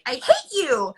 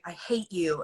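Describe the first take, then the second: First: It is said high-pitched and exasperated. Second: It is said seriously in a normal low voice.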